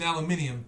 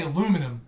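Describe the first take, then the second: First: Aluminium with both I's, al-yoo-MIN-ee-um; British pronunciation. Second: Aluminum without the second I, a-LOO-mi-num; American pronunciation. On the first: Shown as a demonstration. Brit spelling it out for Americans, British pronunciation. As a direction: say "aluminium" in five syllables, British style. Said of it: "there's two I's in aluminium". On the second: Retold or imitated. Brit quoting Americans on radio, American pronunciation. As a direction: say "aluminum" in four syllables, mock American. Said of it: "you'll turn around and say".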